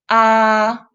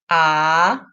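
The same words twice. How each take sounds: First: The pitch stays high and level. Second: The pitch rises from mid to high. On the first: "The first tone, 一声" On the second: "The second tone, 二声"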